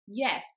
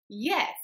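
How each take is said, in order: First: The word is said with more force. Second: The word is said with the most force. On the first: The answer is meant to convince a doubter. "emphasize the word yes a bit more" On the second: The answer insists against continued doubt. "emphasize the word yes still a little bit more"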